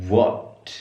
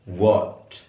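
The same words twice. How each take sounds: No difference in how they are said.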